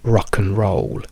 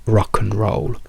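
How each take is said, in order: First: The word 'and' shrinks to a weak 'n' sound. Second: The same.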